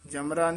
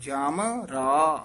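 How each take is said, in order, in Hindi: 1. यह एक जुड़े हुए शब्द की तरह बोला जाता है। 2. यह दो अलग-अलग हिस्सों में बँटा हुआ है। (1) "जमरा नहीं" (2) "वखरा पाठ है"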